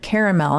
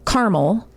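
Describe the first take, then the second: First: The word is said the local regional way. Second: The word is said the Ohio regional way. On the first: "when I came here, people, I only heard caramel" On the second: "In Ohio, they say caramel"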